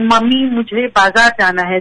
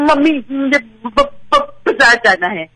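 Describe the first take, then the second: First: It is said smoothly without breaks. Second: It is said with repeated blocked starts.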